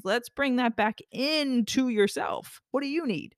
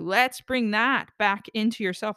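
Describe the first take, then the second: First: Gentle guiding repeat. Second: Said in the usual way. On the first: Shown as a demonstration. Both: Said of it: "I'm doing the gesture with my hands".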